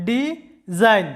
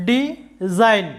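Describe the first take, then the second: First: design said very slowly, di - zine; slow syllable split. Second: design said clearly with the g silent; model word. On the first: Teacher showing students the syllable break, slowly. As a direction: drag design out into two clear syllables. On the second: Teacher splitting the word into syllables, clear. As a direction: say design, di-zine, no g sound. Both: Shown as a demonstration. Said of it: "সিলেবলে ভাগ করে নিলে".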